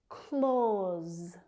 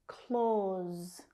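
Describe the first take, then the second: Both takes have the same delivery.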